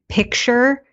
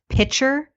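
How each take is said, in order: First: A k sound comes before the ch. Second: No k sound comes before the ch. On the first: "she pronounced the word picture, like a picture on the wall" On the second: "as pitcher, like a pitcher of water"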